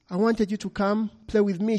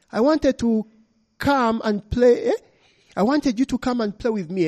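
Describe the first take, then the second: First: Put-on little girl. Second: Higher, lightly voiced small girl asking to play; a spirit girl begging a visitor to play, lightly childlike; little girl wanting to play. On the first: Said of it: "she said". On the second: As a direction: coax like a lonely child. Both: A narrator's reading.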